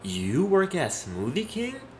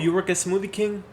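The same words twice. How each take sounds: First: It is said in a doubting, accusing tone. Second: It is said in a plain, neutral tone. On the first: It suggests she is being judged for it. "it's almost like he's accusing her of something" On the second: It is a simple question about her job. "As opposed to, oh"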